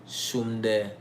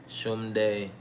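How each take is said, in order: No difference in how they are said.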